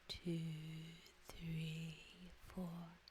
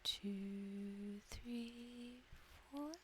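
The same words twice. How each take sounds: First: TWO, THREE, FOUR drawn out low and level; long, low numbers easing downward; counting an out-breath. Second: Long held numbers rising in pitch; counting an in-breath. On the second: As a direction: count "two, three, four" like a slowly climbing scale. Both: Shown as a demonstration.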